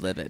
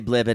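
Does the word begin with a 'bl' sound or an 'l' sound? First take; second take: l sound; bl sound. First: The word begins with a plain 'l' sound. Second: The word begins with a 'bl' sound. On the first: The speaker calls it right. "instead of livid" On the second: The speaker calls it wrong. "we say blivid instead of livid"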